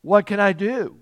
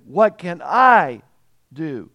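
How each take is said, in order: First: Said in the usual way. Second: "I" drawn out and loud, "do" dropping away; stress on I. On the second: Shown as a demonstration. Preacher stressing the ruler's self-reliance, heavy stress on "I". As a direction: lean hard and long on "I". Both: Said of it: "Let me put the emphasis there".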